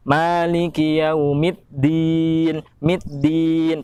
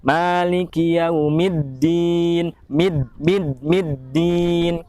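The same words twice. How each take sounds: First: Yaumiddin with dal turned to t, mitdin; wrong dal. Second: Yaumiddin with a firm held dd; strong doubled dal. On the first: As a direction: push a t sound into Yaumiddin. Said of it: "Seperti gini". (contoh salah, seperti ada huruf ta) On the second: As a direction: press the double d of middin strong. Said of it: "Karena bertasydid maka harus lebih kuat". (contoh benar, dal bertasydid kuat) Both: Shown as a demonstration.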